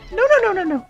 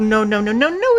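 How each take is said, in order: First: It is said in a high falsetto voice. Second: It is said in a normal voice.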